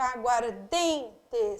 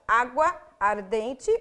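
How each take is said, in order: First: "Aguardente" as one word, DEN held very long; single joined stress. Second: "água ardente" slow and split, A and DEN each stressed; separately stressed words. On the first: Teacher showing the union, "Aguardente" stressed only on DEN. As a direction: stretch DEN in "Aguardente", lower and very slow. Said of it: "se unem em uma pronúncia fonética". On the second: Teacher showing the parts, "água ardente" as two stressed words. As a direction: pause between "água" and "ardente", stressing both. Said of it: "água tem até acentuação". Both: Shown as a demonstration.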